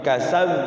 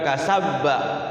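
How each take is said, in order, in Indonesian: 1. Huruf b terakhir hanya berakhir dengan gema singkat. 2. Huruf b terakhir diikuti satu suku kata penuh. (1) "tapi kasab" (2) "bukan kasabba"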